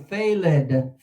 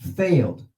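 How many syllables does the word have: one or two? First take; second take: two; one. First: The word is said as two syllables. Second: The word is said as one syllable. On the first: The speaker calls it wrong. "the students usually see the ed and they go failed" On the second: The speaker calls it right. "How many syllables? One"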